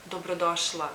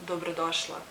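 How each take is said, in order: Both takes have the same delivery.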